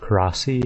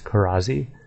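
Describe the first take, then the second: First: The consonant before the final vowel is a hissing S. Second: The consonant before the final vowel is a buzzing Z. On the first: The speaker calls it wrong. "instead of Karasi" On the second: The speaker calls it right. "the S is pronounced as a Z"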